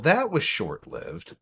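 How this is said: It is read in a sad, disappointed tone. The writer feels disappointed. "I read it in a sad voice, like she was disappointed"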